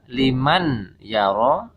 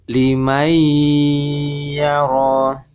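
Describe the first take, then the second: First: The n is pronounced clearly before y. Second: The n merges into a held nasal y. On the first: The speaker calls it wrong. "Jadi tidak dibaca liman yara, suara nun sukunnya tidak jelas ya, jangan dibaca jelas" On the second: The speaker calls it right. "suara nun sukunnya ini masuk ke huruf ya, idgham ke huruf ya, lebur ke huruf ya"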